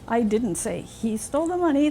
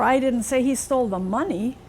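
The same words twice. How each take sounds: First: The stress falls on the word didn't. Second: The stress falls on the word money. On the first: The claim is denied entirely. "That's not true at all" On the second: He stole something other than money.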